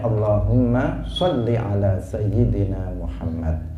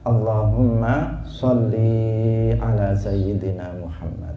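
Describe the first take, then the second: First: The final vowel of sholli is kept short. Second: The final vowel of sholli is drawn out long. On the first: The prayer is addressed to a male or to God. The speaker calls it right. "Jadi kita harus membacanya" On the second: The prayer is addressed to a female. The speaker calls it wrong. "Tidak boleh dikatakan"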